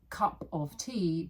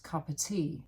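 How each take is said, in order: First: The word 'of' is said in full. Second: The word 'of' is weak and almost disappears.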